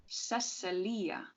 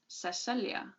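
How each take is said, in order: First: Cecilia slowly split as SEH-seh-LEE-uh; stressed first part. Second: Cecilia as seh-SELL-ya, stress in the middle; flowing pronunciation. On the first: Narrator shows how people now say it, Cecilia as SEH-seh-LEE-uh. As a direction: draw out Cecilia, weighting the opening SEH-seh. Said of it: "now people stressed the Cece". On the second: Narrator recalls how people used to say it, Cecilia as seh-SELL-ya. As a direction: let Cecilia flow in three syllables, seh-SELL-ya. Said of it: "It flowed better then". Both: A narrator's reading.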